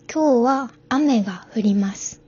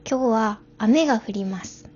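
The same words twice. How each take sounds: First: It is said with standard Japanese intonation. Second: It is said with Kansai dialect intonation. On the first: "これが標準語だとすると" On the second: "関西弁は関西のイントネーションでお話しすると"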